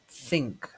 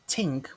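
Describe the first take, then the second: First: The word begins with a th sound. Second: The word begins with a plain t sound. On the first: The speaker calls it right. "but think" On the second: The speaker calls it wrong. "It's not tink"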